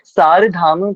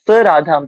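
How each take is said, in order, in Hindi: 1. एक शब्द 'saradham' की तरह कहा गया है, बिना रुके। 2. दो भागों में कहा गया है, 'sa' फिर 'Radham'। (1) "जो हम इतने सालों से हम इसको याद करते बोलते आए हैं" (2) "तो इसका उच्चारण बदल जाएगा फिर"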